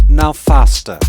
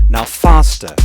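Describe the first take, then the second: The two takes are said the same way.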